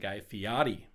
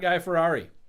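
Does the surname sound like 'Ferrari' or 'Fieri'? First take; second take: Fieri; Ferrari. First: The surname is said like 'Fieri'. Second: The surname is said like 'Ferrari'. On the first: The speaker calls it right. "I did find out that his name is Guy Fieri" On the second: The speaker calls it wrong. "not Guy Ferrari"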